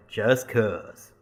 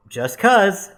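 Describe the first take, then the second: First: Deep Southern drawl. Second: High, loud, offhand answer; coy evasive reply. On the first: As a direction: repeat it back in a low Southern drawl. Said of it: "really deep Southern drawl". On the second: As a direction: toss it off in a high, light voice. Own reply, contrasted with man's echo. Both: Retold or imitated.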